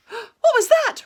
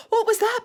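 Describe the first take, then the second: First: High, loud frightened cry; fearful call. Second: High, loud alarmed what; startled question. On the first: Rabbit lost in the mist, high fearful cry. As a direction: call out in fear. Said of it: "Rabbit called fearfully". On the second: Piglet waking up, startled high question. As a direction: blurt it out in alarm. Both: A narrator's reading.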